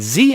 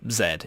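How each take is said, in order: First: The letter is said 'zee', American style. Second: The letter is said 'zed', British style.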